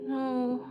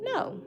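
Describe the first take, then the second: First: It sounds unsure and hesitant. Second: It sounds firm and confident.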